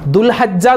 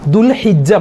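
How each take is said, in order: First: An 'a' vowel follows the 'h'. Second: An 'i' vowel follows the 'h'. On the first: The speaker calls it wrong. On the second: The speaker calls it right.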